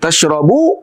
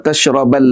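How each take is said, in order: First: The verb ends with an u vowel. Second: The verb ends with an a vowel.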